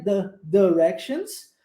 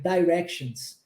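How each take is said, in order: First: "directions" with the I said like E, as de-rections. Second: "directions" with the I said as ai, as dai-rections. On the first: Teacher showing students the first pronunciation. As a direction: use the E sound in "directions". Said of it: "pronunciar o I com som de E". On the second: Teacher showing students the second pronunciation. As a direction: use the ai sound in "directions". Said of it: "pronunciar o I com som de I". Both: Shown as a demonstration.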